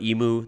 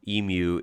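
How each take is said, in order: First: It is said with the American pronunciation. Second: It is said with the Australian pronunciation. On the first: The speaker calls it wrong. "that's just wrong" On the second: The speaker calls it right. "Emu is better and, and feels more natural to me"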